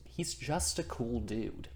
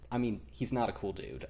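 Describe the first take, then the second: First: Said in the usual way. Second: "not" leaned on, falling to the end; self-correction with "not" stressed. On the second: Shown as a demonstration. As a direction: correct himself by hitting "not".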